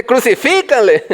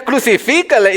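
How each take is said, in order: First: High mock yell with extra push; hammed-up crowd cry; imagined stronger shout. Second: High-pitched mock cry; half-shouted imitation of a crowd; imagined crowd shout. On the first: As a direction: act out joining the mob with more force. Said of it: "gritar más fuerte". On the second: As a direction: call it out as one of the mob. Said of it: "Tú estarías ahí gritando también".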